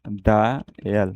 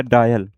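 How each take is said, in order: First: "डायल" drawn out in two slow parts, डा, यल; broken into sounds. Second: Said in the usual way. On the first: Shown as a demonstration. Teacher sounding out the outline for students, "डायल" slow and split. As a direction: stretch "डायल" slowly, syllable by syllable.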